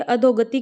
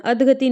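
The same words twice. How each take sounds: First: अधोगति with long "dho"; correct form demo. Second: अधगति as "adh-gati", no o; wrong form demo. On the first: Teacher corrects students, अधोगति with a clear o. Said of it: "क्या होती है". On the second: Teacher shows the mistake, अधगति without the o. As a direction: say अधगति without a middle vowel. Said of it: "नहीं होती". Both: Shown as a demonstration.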